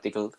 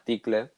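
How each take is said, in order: First: The word is said with English sounds. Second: The word is said with Spanish-style sounds. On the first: The speaker calls it right. "pronunciado bien" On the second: The speaker calls it wrong. "pronunciado mal"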